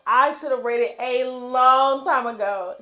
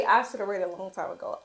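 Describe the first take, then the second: First: Louder, slower, every word leaned on; loud drawn-out insistence; emphatic repeat. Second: Said in the usual way. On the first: Shown as a demonstration. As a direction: drive the regret home, slowly. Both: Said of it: "repeated louder and slower".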